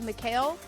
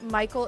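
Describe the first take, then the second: First: The name is said as Mee-kha-eel. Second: The name is said like English Michael. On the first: "It could be Mikhail" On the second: "I'm pronouncing it Michael"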